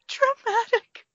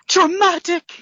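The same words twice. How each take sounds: First: The word is said in a sad, heartbroken manner. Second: The word is said in a grand, dramatic manner. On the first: "now say it with heartbreak" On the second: "I can say it again"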